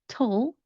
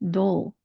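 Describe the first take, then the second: First: It has a hard T sound. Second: It has a soft D-like sound.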